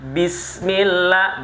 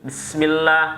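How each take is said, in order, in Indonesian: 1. Setiap suku kata diucapkan dengan jelas dan terpisah. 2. Suku katanya menyambung dan tidak jelas. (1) "bi-nya jelas, sin-nya jelas" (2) "nah itu nggak nggak jelas"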